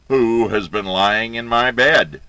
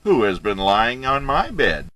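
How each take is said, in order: First: It is said in a deep, big bear voice. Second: It is said in a lighter, mama bear voice.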